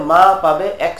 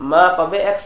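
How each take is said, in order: Both takes have the same delivery.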